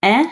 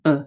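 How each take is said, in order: First: E said as open "eh"; grave E sound. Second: E said as short schwa "uh"; regular E sound. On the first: Teacher contrasting vowels, open eh sound. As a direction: model the grave E. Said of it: "The difference between grave". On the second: Teacher contrasting vowels, schwa uh sound. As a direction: model the regular E. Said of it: "and a regular E". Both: Shown as a demonstration.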